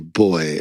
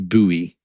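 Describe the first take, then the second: First: The word is said the British way. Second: The word is said the American way. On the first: This is how the locals say it. "And we say boy" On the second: This is how the visitors say it. "they always say buoy"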